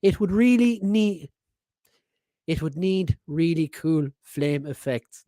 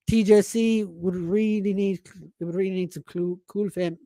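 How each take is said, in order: First: Slow, deliberate second go at the line; careful retry. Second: Tripping over the words of a tongue twister; fumbling, halting read-out; stumbling read. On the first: Host retrying the listener's message, slow and careful. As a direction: carefully spell it out word by word. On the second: Reading a listener's message aloud, tongue-tied stumbling. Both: Real, not acted. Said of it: "tongue twister".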